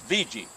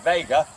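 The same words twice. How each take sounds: First: The name is said the local way. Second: The name is said the widespread, general way. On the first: "local people say, uh, you know, uh, it's Vega" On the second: "people say Vega"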